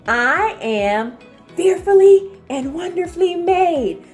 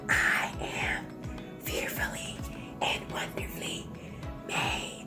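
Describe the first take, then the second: First: It is said at normal volume. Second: It is said in a whisper.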